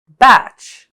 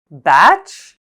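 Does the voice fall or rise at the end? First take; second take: fall; rise. First: The pitch falls at the end. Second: The pitch rises at the end.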